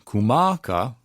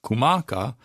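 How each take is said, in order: Both takes have the same delivery.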